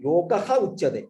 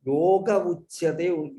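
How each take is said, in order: First: "Yogaha" with a clear "ha" sound before Uchyate; visarga pronounced. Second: Yoga Uchyate, said very slowly with no "ha" after Yoga; the final "ha" of "Yoga" dropped, the words slowly joined; sandhi form without visarga. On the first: ("Yogaha" with the visarga voiced as "ha") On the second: (Yoga Uchyate, slow and careful, with no visarga) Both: Shown as a demonstration. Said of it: "the Yogaha is Vilopam".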